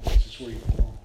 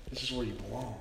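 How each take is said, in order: First: Low-pitched, firmly projected assurance; emphatic welcome. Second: Hushed, low echo of the welcome; soft reassurance. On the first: Father to returning son at his welcome home, emphatic. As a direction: land it loud and low, as a father's declaration. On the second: Father to returning son at his welcome home, softly reassuring. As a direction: let it drop soft, as a private assurance. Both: Retold or imitated.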